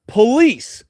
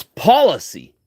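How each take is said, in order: First: Police as "puh-LEESE", second syllable punched; mispronunciation on show. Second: Policy as "POL-uh-see", stress up front; corrected pronunciation. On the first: Speaker mocks the supposed mistake, police as puh-LEESE. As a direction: set police apart, stressing LEESE. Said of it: "mispronouncing it police". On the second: Speaker corrects police to policy, POL-uh-see stressed first. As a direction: hit the first syllable of policy. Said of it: "they've got you mispronouncing it". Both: Shown as a demonstration.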